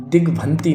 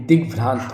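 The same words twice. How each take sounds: First: दिग्भ्रांति as "digbhanti", no r; mispronounced दिग्भ्रांति. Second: Said in the usual way. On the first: Shown as a demonstration. Teacher showing the wrong form, दिग्भ्रांति as "digbhanti". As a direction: drop the r, end on i. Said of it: "दिग्भ्रांति नहीं". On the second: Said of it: "दिग्भ्रांत होता है".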